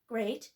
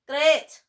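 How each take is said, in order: First: It is said with a plain American vowel. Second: It is said with a strongly stressed Scottish vowel. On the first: "instead of great" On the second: "The Scottish would say the word ... with much more emphasis on the A sound"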